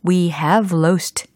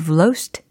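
First: We and have are said as two full words. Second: We and have merge into one short syllable.

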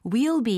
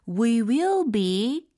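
First: The words we and will are contracted together. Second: The words we and will are said in full.

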